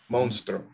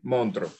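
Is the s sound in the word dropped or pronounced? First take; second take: pronounced; dropped. First: The s sound is fully pronounced. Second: The s sound is dropped.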